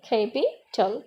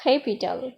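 First: capital broken up, capi, pause, tal; teacher sounding out capital in parts; split into syllables. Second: Said in the usual way. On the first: Shown as a demonstration. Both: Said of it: "তিনবার উচ্চারিত হয়েছে".

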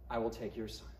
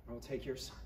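First: "I" weighted, much lower and softer; a low, quiet threat leaning on "I"; deep hushed warning, the weight on "I"; stress on I. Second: "your" weighted, much lower and softer; hushed warning, the weight on "your"; stress on your. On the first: God's threat, first take. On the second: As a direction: repeat it quietly, now leaning on "your". God's threat, second take. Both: Acted.

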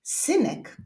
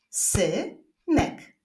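First: Said in the usual way. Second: "Synek" split into two separate syllables. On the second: Shown as a demonstration. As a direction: clap out "Synek" with a long gap midway. ("Synek" z długą przerwą między sylabami) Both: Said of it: "Zapraszam do wyklaskiwania sylab".

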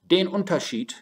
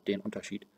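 First: "den" said high and loud, stressing the accusative. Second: Said in the usual way. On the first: Shown as a demonstration. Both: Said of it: "the difference in the accusative".

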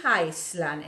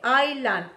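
First: Island said ice-lan with the s sounded, the mistake; wrong island. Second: Island said eye-lan, silent s, firm falling; correct island. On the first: Teacher warning students off ice-lan for Island. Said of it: "No pronuncies Island". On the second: Teacher drilling the class on silent-s Island. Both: Shown as a demonstration.

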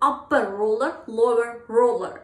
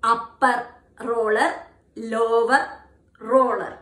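First: Smooth and linked. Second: Choppy word-by-word. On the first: Teacher showing the right flowing way to say the twister. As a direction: run the words together smoothly. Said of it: "Instead, you have to try this way". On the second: Teacher showing the wrong choppy way to say it. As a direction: say it in broken separate words. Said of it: "Never say the tongue twister in this way". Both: Shown as a demonstration.

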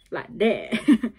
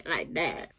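First: "Like that" said louder, punchy; louder take. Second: Said in the usual way. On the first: Shown as a demonstration. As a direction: push the "Like that" out. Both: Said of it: "He's like, he's like a".

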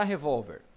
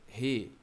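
First: Said in the usual way. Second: "Revólver" split into three with long pauses; syllable by syllable. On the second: Shown as a demonstration. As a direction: say "Revólver" as re, vól, ver. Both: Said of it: "Vamos separar revólver".

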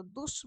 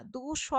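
First: দুস said as one closed syllable; দুস run together in a single beat. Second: দু স said as two separate beats; দু স pulled apart into two parts; syllables split apart. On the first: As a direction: close দুস with no vowel after স. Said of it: "দুস বলছি". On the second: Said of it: "দু স বলছি না তো". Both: Shown as a demonstration.

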